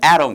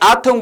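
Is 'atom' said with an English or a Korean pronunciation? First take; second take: English; Korean. First: It is said with a native English pronunciation. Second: It is said with Korean-style syllables, 'a-tom'.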